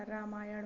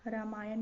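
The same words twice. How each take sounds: First: रामायण ending in retroflex ण; correct pronunciation. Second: रामायण ending in dental n; wrong pronunciation. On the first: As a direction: curl the tongue at the end of रामायण. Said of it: "होता है". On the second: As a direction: close रामायण with a plain n. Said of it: "नहीं होता". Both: Shown as a demonstration.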